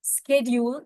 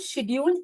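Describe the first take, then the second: First: The word begins with an 'sk' sound. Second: The word begins with an 'sh' sound. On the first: This is the American form. "स्केड्यूल is American English" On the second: This is the British form. "It's called शेड्यूल British English"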